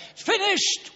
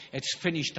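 First: Sudden high, loud cry. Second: Said in the usual way. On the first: Acted. Jesus on the cross, crying out high and loud. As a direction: cry the words out high above the sermon.

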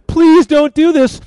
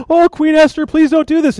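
First: High, slow, drawn-out plea; stretched-out, higher-pitched imploring; desperate mock begging. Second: Higher-pitched begging; hammed-up anxious plea, pitched high; mock pleading. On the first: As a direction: beg at the queen's feet, hammed up. Haman falls on couch, begging again. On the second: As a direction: act out a man begging for mercy. Haman begs queen for his life.

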